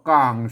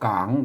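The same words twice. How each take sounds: First: The syllable has a low tone. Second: The syllable has a rising tone. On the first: "เสียงเอก" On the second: "เสียงจารวา"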